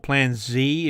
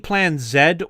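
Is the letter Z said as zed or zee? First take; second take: zee; zed. First: Z is said as zee, American style. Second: Z is said as zed, non-American style.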